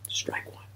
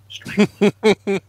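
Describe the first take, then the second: First: Whispered to himself under his breath. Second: Much higher, umpire-style call; high mock announce. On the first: After she laughs at his chair jump, whispered to himself. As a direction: breathe it out as a private aside. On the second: After she laughs at his chair jump, high umpire-style call. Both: Real, not acted.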